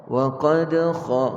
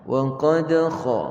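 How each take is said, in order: No difference in how they are said.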